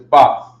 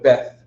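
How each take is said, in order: First: It is said the Hebrew way. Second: It is said the English way. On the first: "in Hebrew, it's Bath" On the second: "in English, they call it Beth"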